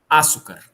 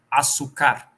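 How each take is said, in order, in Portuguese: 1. A tônica está na primeira sílaba. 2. A tônica está na última sílaba. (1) "Se ela fosse proparoxítona" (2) "E se ela fosse oxítona"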